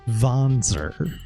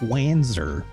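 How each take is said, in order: First: The name is pronounced in a German way. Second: The name is pronounced in an English way. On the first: The speaker calls it right. "It's Wanzer, please. It's German" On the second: The speaker calls it wrong. "it's not Wanzer"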